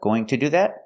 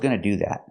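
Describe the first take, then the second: First: The full 'going to' is said with a T sound. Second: It is reduced to 'gonna' with no T sound. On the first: "making the to sound like t" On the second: "make the reduction and say"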